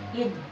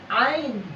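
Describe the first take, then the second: First: The vowel is a short i sound. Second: The vowel is an ai diphthong. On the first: The speaker calls it right. "Ini kan dibacanya seperti biasa" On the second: The speaker calls it wrong. "Tidak ain"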